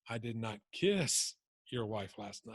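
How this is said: The stress falls on the word "kiss". "Let me put it on the word kiss"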